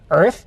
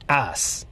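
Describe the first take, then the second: First: It has an er vowel and ends in th. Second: It has an ah vowel and ends in s. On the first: "it's not Earth" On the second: "replace Er sounds with Ah, and T H becomes S"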